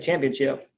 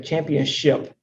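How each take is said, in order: First: The last syllable sounds like chip. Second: The last syllable sounds like ship. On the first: This is how people commonly say it. "you say it, championship. That's what you say" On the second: People do not usually say it this way. "You don't say championship"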